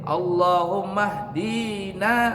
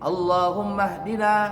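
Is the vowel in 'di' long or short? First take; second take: long; short. First: The vowel in 'di' is held long. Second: The vowel in 'di' is kept short. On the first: The speaker calls it wrong. "Salah. Bukan panjang" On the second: The speaker calls it right. "bacanya pendek dinya"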